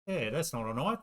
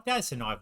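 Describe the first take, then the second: First: Said in the usual way. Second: That's hit hard and louder, falling on that's; mock Crocodile Dundee emphasis. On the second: Quoting Crocodile Dundee to the viewers, loud stress on that's. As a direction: punch that's like the Dundee line.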